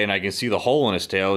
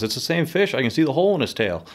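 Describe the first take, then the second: First: Said in the usual way. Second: Much higher, fast, excited retelling of Charlie. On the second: Retold or imitated. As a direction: blurt it out as if spotting the fish. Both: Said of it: "Charlie goes".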